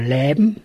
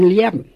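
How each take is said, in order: First: It is said in northern Low German. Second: It is said in Westphalian, with a diphthong.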